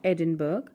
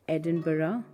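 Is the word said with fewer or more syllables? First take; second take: fewer; more. First: The word is said with fewer syllables. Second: The word is said with more syllables. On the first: The speaker calls it wrong. "It is not Edinburgh" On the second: The speaker calls it right. "pronounced with more syllables than it looks like"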